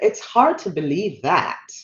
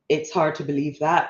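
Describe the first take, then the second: First: It is said slowly with a changed tone. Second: It is said at normal speed and tone. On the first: "but they may" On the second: "they may not slow down when they go"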